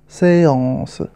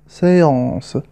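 The two takes are said the same way.

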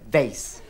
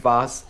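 First: Vase is said with an American pronunciation. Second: Vase is said with a non-American pronunciation.

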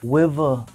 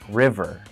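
First: It starts with a W-like sound. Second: It starts with a clear R sound. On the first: The speaker calls it wrong. "I used to say river" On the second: The speaker calls it right. "Now I can say my R's perfectly"

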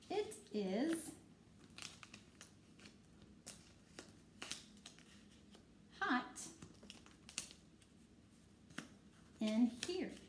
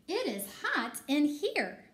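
First: It is read plainly, without excitement. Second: It is read with an excited voice.

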